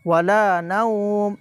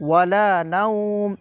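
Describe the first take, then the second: No difference in how they are said.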